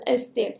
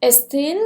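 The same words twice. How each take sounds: First: "استیل" said with a falling, final tune; second take, falling and final. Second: "استیل" said with a rising, listing tune; first take, rising. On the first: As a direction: let "استیل" drop to a close. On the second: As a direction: lift the end of "استیل" as if more follows. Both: Shown as a demonstration.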